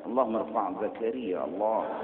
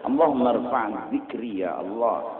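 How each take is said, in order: First: Allahumma rfa' zakari said with zakari instead of zikri; wrong Arabic reading. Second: Allahumma rfa' zikri said properly with zikri; correct Arabic reading. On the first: Preacher mimics a man misreading the prayer. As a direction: read Allahumma rfa' zakari as a careless mispronunciation. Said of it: "Dia ngomongnya salah". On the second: Preacher gives the correct form of the prayer. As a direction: say zikri, not zakari, cleanly. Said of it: "dia barisi zakari". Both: Shown as a demonstration.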